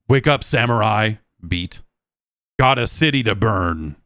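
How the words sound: It is said stilted, with a broken pause.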